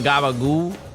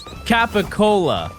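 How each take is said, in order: First: It is clipped to gabagoo, with voiced consonants. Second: It is said in full as capicola. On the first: This is the regional way of saying it. The speaker calls it wrong. "I just know how to pronounce it the dumb way" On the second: This is the standard name. The speaker calls it right. "the actual name is capicola"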